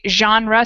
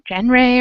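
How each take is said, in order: First: The first sound is a soft, French-style G. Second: The first sound is a hard, English-style G. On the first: The speaker calls it right. "we say genre, so it's a really soft G sound" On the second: The speaker calls it wrong. "it looks like gen genre or something"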